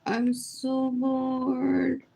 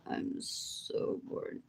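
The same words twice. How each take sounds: First: Slow, stretched out, bored; slow bored drawl. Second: Slow whisper; whispered bored. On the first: Telling the viewers she's bored, said slowly. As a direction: let each word sag slowly. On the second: Repeating her boredom to viewers, whispered slowly. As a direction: breathe it out slowly with no voice. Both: Shown as a demonstration. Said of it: "says it twice".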